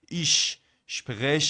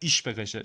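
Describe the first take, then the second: First: Said slowly, with the two sh sounds separate. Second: Said quickly, with the two sh sounds merged. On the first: "جدا بخوام" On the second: "اگه بخوام سریع بگم"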